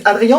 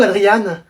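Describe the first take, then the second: First: Adrien ending in a nasal vowel; French nasal ending. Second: Adriane ending in a clear "ane"; sounded final consonant. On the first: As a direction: say Adrien with a silent n. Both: Acted. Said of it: "Tu préfères que je dise Adrien ou Adriane?".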